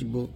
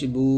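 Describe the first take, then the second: First: The vowel is said short and quick. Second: The vowel is drawn out long. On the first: "এটা আমরা টান দেনে আমরা তাড়াতাড়ি পড়ছি" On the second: "এরকম টানতে হবে"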